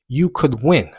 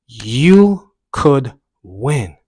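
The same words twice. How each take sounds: First: Slightly raised "You could win"; encouraging inner voice. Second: Very slow, loud "You ... could ... win"; drawn-out encouragement. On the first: Runner repeating it to himself, encouraging. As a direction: cheer yourself on at normal pace. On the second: Runner repeating his mantra mid-run, slowly emphatic. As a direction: stretch every word out with force. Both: Retold or imitated. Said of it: "the voice kinda changed".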